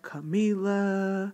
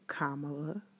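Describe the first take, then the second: First: The stress is on the second syllable. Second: The stress is on the first syllable. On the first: The speaker calls it wrong. "too many people that call her Camila" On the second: The speaker calls it right. "Emphasis on the first syllable"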